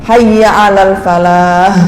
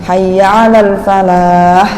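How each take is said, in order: Both takes have the same delivery.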